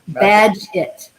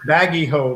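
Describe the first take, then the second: First: The name sounds like 'badge it'. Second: The name sounds like 'baggy ho'. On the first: The speaker calls it right. "Badge it, like a badge it, badge it, right?" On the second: The speaker calls it wrong. "I used to call it baggy ho"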